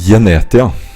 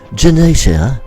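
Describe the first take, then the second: First: It is said with a Norwegian accent. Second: It is said with a British accent. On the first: "in Norwegian it would be Genetia" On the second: "How is it in British?"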